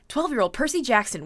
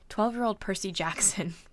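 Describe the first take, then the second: First: It is read in a put-on newscaster voice. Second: It is read in a plain, ordinary voice.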